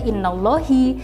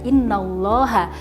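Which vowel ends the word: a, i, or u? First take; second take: i; a. First: The word ends with an i vowel. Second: The word ends with an a vowel. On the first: The speaker calls it wrong. "tidak bisa dibaca innallahi" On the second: The speaker calls it right. "akan tetapi dibaca innallaha karena mubtada atau subjeknya yang di awal tadi berubah menjadi mansub"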